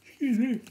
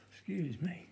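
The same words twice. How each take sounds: First: Said through a loud yawn. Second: Said in the usual way. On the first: Real, not acted. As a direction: let a big yawn swallow "Excuse me.". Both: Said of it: "Excuse me, yawning".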